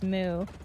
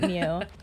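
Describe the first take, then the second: First: The word is said like moo, with no y sound. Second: The word is said like mew, with a y sound. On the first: The speaker calls it right. "I think they pronounce it as Moo" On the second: The speaker calls it wrong. "and not Mew"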